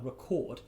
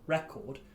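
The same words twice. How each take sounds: First: The stress is on the second syllable. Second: The stress is on the first syllable. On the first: "stress the O on record" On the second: "stress the E on record"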